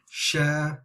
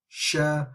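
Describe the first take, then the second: First: The lips open wide during the vowel. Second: The same.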